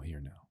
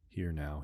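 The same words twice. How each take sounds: First: "here now" dropped much softer and lower, trailing off; fading echo. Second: Said in the usual way. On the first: Acted. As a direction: let "here now" fade almost to nothing. Meditation guide echoing the cue.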